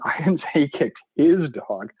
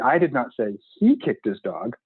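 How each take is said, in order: First: The stress falls on the word his. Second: The stress falls on the word he. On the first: He kicked a dog that was not his own. "he's totally a dog kicker. It just wasn't his own dog" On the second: Someone else kicked the dog. "the sentence means that dog totally got kicked, but it just wasn't by him"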